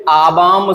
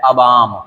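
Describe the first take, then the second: First: आबाम said as "aa-baam"; long first vowel. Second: अबाम said as "a-baam", lower; short first vowel. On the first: Teacher naming the wrong word, आबाम with long first aa. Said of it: "शब्द गलत है". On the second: Teacher answering own question, अबाम with short first a. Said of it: "सही शब्द क्या है". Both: Shown as a demonstration.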